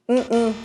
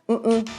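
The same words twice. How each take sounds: No difference in how they are said.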